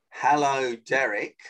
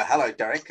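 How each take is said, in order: First: Unhurried phone greeting, name set apart; measured mirroring pace. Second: Brisk phone greeting, run together; fast mirroring pace. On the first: Coach shows how to answer his call, measured pace. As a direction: greet the caller back in measured time. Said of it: "the same pace I do". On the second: Coach plays the caller mirroring him, brisk. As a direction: greet a busy man back quickly. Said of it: "said it at a fast pace". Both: Shown as a demonstration.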